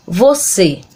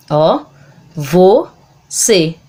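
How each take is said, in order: First: Said in the usual way. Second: "você" broken into vo, pause, cê; syllable by syllable. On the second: Shown as a demonstration. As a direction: separate the two syllables of "você" clearly. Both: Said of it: "Separa do mesmo modo que fala".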